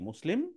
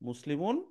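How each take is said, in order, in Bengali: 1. শব্দটি -un ছাড়াই থেমে যায়। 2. শব্দটি পূর্ণ -un দিয়ে শেষ হয়।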